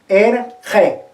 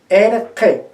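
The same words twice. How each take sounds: Both takes have the same delivery.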